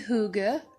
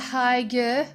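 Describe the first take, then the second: First: The word is said in a Danish-style way. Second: The word is said in an anglicized way. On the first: The speaker calls it right. "it's actually hygge, uh, in Danish" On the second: The speaker calls it wrong. "I used to call it hygge"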